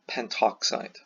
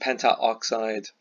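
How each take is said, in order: First: The 'a' vowel before 'oxide' is dropped. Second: The 'a' vowel before 'oxide' is pronounced. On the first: The speaker calls it right. "it just flows better" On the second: The speaker calls it wrong. "rather than pentaoxide"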